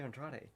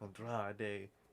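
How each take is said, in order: First: The name is said with an English accent. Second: The name is said with a Mexican Spanish accent.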